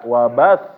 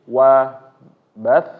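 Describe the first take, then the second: First: The ba syllable is pressed and raised. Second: The final sound is pressed and raised. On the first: The speaker calls it wrong. "ba-nya langsung ditekan, ditinggiin. Nah ini keliru" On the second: The speaker calls it right. "ditekan sedikit yang menyebabkan suara ini meninggi"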